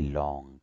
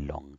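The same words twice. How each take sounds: First: The vowel sound is held long. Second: The vowel sound is kept short. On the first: The speaker calls it right. "We say long. ... the low sound is longer" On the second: The speaker calls it wrong. "We don't say long"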